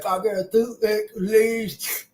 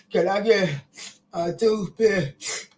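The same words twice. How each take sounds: First: Toothless lisp. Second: Slow, lisping gap-toothed voice; toothless lisp. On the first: Repeating how she talks without teeth, a light lisp. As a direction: say it through missing front teeth. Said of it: "I talk like that". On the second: Showing how she talks without front teeth, a slow lisp. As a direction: lisp it out like your front teeth are missing. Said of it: "I talk like this". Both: Retold or imitated.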